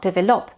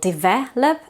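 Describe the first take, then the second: First: The stress is on the first syllable. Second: The stress is on the second syllable. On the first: The speaker calls it wrong. "it's not develop" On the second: The speaker calls it right. "the stress is on the second syllable"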